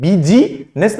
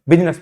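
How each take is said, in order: First: बीजीनेस said wrongly as bee-jee-ness, with the silent i voiced; बीजीनेस with every vowel sounded; wrong pronunciation. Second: बिजनेस said as biz-ness, the i silent; बिजनेस, correct, no middle i; correct pronunciation. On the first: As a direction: mispronounce बीजीनेस as three full syllables. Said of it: "बीजीनेस नहीं पढ़ते हैं". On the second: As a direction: say बिजनेस in two syllables. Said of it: "बिजनेस पढ़ते हैं". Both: Shown as a demonstration.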